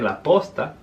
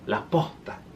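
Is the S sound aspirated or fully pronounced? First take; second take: full; aspirated. First: The S sound is fully pronounced. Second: The S sound is aspirated like an H. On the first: "instead of saying la posta" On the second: "it'll be like la posta"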